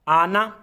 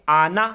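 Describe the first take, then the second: First: The final vowel is kept short. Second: The final vowel is kept short.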